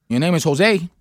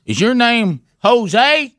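First: Said in the usual way. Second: Slow, higher Jose with both syllables stretched; overdone, drawn-out Jose; exaggerated pronunciation. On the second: Shown as a demonstration. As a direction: drag out Jose as a high question. Exaggerated take on a Spanish name.

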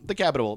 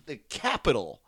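First: "Capitol" slipped into "Capitable"; tripped-up word. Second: "Capitol" said cleanly in three syllables, no b; careful correct pronunciation. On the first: Real, not acted. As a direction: trip over "Capitol", adding a stray b before the final l. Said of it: "I can't say Capitol". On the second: Shown as a demonstration. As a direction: sound out "Capitol" carefully, ending in a plain -tol. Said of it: "I've said it".

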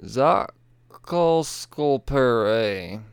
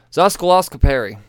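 First: Zoskolscoperi sounded out very slowly, syllable by syllable; slow careful retry. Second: Zoskoloscoperi blurted out quick and confident; botched first attempt. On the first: Host retrying the hard ability name, very slow. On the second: Host failing to pronounce the ability name, blurted. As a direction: rush through Zoskoloscoperi. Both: Shown as a demonstration.

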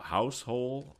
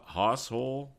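First: "house hole" with HOUSE like the building; slow, tentative "house hole"; trying a pronunciation. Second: "hoss hole" with HOSS rhyming with boss; tentative "hoss hole", short open vowel in hoss; alternative pronunciation. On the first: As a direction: sound out "house hole" slowly, vowel as in "now". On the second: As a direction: try "hoss hole" as a higher question. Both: Shown as a demonstration. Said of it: "I don't know".

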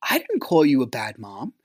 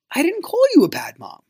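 First: Said in the usual way. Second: "call you" pushed up very high in protest; incredulous emphatic denial. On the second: Retold or imitated. Recalling the bad mom argument, "call you" pitched high in incredulous denial. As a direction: hit "call you" with a high, disbelieving leap.

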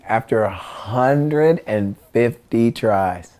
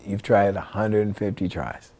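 First: "hundred and fifty tries" stretched out slowly; drawn-out emphasis. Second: Softer, quicker "hundred and fifty tries"; understated remark. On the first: Real, not acted. Storyteller stressing how long the trick took, "hundred and fifty tries" drawn out. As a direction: spell out "hundred and fifty tries" at half speed. Stressing the absurd number of attempts. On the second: Retold or imitated. Friend points out the failed attempts, understated remark. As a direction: say it low-key, as a quiet observation.

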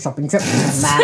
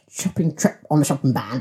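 First: "shopping trip on the shopping ban" rattled off fast; fast correction. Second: "trip" and "ban" stressed, falling. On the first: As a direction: rattle it off quickly, punching "trip". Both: Shown as a demonstration. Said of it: "but shopping trip on the shopping ban".

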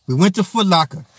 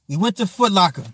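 Both takes have the same delivery.

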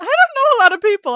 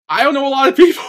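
First: Playful mocking repeat; teasing echo. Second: High, loud mock protest; exasperated shout. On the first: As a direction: throw the line back teasingly. Repeating friend's line back. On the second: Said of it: "I'm like".

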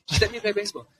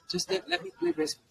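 First: A little high, steadier plea; pleading kid, calmer. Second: Put-on high, begging child voice; pleading kid. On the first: Retold or imitated. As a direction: repeat the request, less shrill. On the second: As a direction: beg like a boy desperate to play. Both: Son pleading with dad.

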